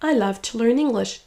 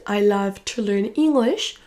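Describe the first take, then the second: First: "to" weakened to a quick t before "learn"; reduced TO. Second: Said in the usual way. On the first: Shown as a demonstration. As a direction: swallow the vowel in "to", stress "love" and "learn". (to réduit en t) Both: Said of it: "Le to va être réduit".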